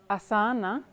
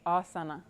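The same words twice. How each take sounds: First: It is said with an English pronunciation. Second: It is said with a Sanskrit pronunciation. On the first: It becomes a different word. The speaker calls it wrong. "if you say something like asana, it's actually a totally different word" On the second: It means the yoga posture. The speaker calls it right. "the Sanskrit word asana, which means the posture"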